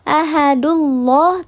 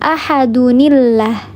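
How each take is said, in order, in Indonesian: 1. Kata ini langsung berlanjut tanpa suku kata 'ni'. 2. Suku kata 'ni' yang pendek menghubungkan kedua kata. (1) "tidak mungkin" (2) "bukan ahadullah tapi ahadunillah"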